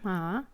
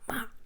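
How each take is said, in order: First: The pitch rises from middle to high. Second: The pitch drops sharply from high to low. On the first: "second tone" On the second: "the hard one"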